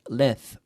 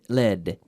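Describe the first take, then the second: First: The word ends with a soft th sound. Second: The word ends with a clear d sound. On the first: The speaker calls it wrong. "not not leth" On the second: The speaker calls it right. "make sure d"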